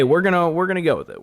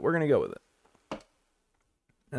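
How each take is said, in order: First: Said in the usual way. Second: Slow, quieter resigned repeat; resigned drawl. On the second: Real, not acted. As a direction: drag it out, resigned.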